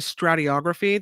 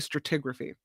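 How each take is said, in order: First: The vowel before 'graphy' sounds like 'o'. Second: The vowel before 'graphy' sounds like 'i'. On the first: The speaker calls it wrong. "They don't say stratigraphy" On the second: The speaker calls it right. "they say stratigraphy"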